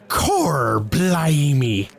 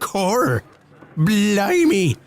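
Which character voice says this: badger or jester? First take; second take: badger; jester. First: It is said in the badger character's put-on voice. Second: It is said in the jester character's put-on voice. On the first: "'Tis I, Chunt the Badger" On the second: "here comes a jester now"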